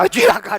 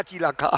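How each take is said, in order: First: Alarmed. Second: Cilaka said softer, dropping under the breath; worried murmur. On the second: Mother-in-law fretting quietly over the child. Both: Retold or imitated. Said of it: "mertua saya bilang".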